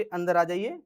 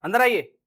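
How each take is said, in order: First: Polite invitation. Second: Louder, curt and rude; rude command. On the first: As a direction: invite them in kindly. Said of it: "तमीज से बोल रहे हो". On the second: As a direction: bark the invitation like an order. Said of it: "बदतमीजी से बोल रहा है". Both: Shown as a demonstration.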